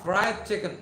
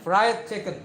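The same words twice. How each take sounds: First: "Fried chicken" said clearly for the class to copy; model pronunciation. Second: "Fried chicken" louder, a final clear model with "fried" hit hard; loud last teacher model of "Fried chicken"; model pronunciation. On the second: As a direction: belt out "Fried chicken" for the whole class. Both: Shown as a demonstration.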